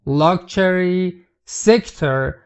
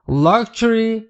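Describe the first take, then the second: First: Luxury drawn out slowly, syllable by syllable; teacher stretches luxury out slowly; slow model word. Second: Said in the usual way. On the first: Shown as a demonstration. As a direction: spell out luxury slowly for learners.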